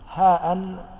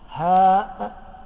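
First: It ends with a glottal stop plus -in. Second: It ends with a bare glottal stop. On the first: "بالتنوين" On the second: "بالهمزة بالسكون"

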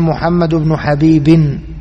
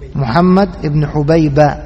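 First: The final name ends with an added 'n' sound. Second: The final name ends in a bare 'a' vowel. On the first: The name would be the father's. The speaker calls it wrong. "بالتنوين" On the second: The name is the mother's. The speaker calls it right. "بفتح الباء غير مصروف"

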